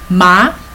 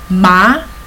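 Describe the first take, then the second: First: The pitch rises from mid to high. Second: The same.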